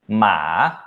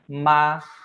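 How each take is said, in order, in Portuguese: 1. A altura desce baixa e depois sobe. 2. A altura fica alta e nivelada. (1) "pra cavalo" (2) "pra mãe"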